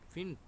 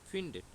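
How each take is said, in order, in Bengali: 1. শেষ t-এর আগে কোনো স্বরধ্বনি উচ্চারিত হয় না। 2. শেষ t-এর আগে একটি অতিরিক্ত স্বরধ্বনি উচ্চারিত হয়। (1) "সুন্দরভাবে উচ্চারণটা করতে পারতেছি না।" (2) "এক্সট্রা একটা এ যুক্ত করে দিলাম"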